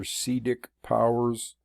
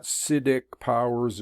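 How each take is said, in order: First: Siddhic said with a long ee, "SEE-dik"; alternative pronunciation. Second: Siddhic said with a short first i, "SID-ik"; first pronunciation variant. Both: Shown as a demonstration. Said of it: "however you wanna pronounce it".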